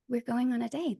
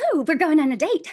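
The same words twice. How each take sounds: First: It is said in a quiet, muted way. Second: It is said in a loud, lively way. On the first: The speaker calls it right. "When it's really" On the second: The speaker calls it wrong. "you don't want to go in and go"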